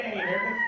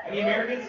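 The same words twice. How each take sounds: First: Very high call; high call to the crowd. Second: Said in the usual way. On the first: Real, not acted. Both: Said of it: "Do we have any Americans".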